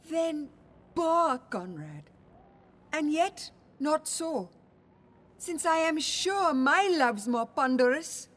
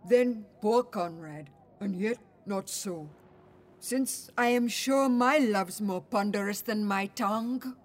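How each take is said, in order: First: It is read in her normal voice. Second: It is read in a deepened voice.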